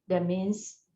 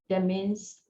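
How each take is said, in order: The two takes are said the same way.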